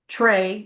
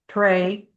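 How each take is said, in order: First: It begins with a ch-like sound. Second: It begins with a clear t sound. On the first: "How do we say it? ... We say it with a C H" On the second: "technically you're supposed to say tray"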